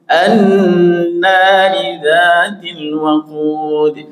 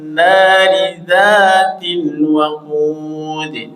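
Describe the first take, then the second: First: An 'a' vowel is sounded before 'nari'. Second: No vowel before 'nari'; it joins the previous word. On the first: The phrase starts a new reading. "Ketika diawali itu dari kalimat pertama, maka alif atau di awalnya hidup" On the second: The phrase continues from the word before. "Kita wasal coba"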